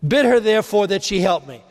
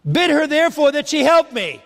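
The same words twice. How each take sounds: First: Said in the usual way. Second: Mock a put-upon sister asking for help; whiny Martha. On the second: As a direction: Martha demanding that Jesus make Mary help her, in a whiny voice. Martha's demand acted out.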